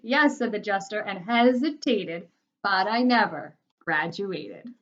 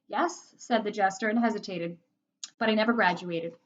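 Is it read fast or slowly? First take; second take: slowly; fast. First: It is read at a slower pace. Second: It is read at a quicker pace.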